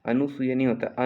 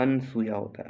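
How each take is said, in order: First: अनुसुया with an extra u, marked as wrong; अनुसुया given as the wrong form; wrong pronunciation rejected. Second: अनसुया with no u after न; अनसुया as the teacher corrects it; correct pronunciation. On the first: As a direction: say अनुसुया as the mistake to avoid. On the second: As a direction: say अनसुया as the right form. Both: Shown as a demonstration.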